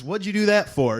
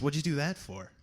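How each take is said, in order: First: Higher and louder, aghast at the shooting; shocked outcry. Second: Said in the usual way. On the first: Acted. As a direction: blurt it out in alarm. Texan reacting to a shooting.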